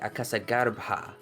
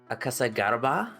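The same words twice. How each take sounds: First: The b sound has a strong puff of air. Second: The b sound is plain, without aspiration. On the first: The speaker calls it right. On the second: The speaker calls it wrong.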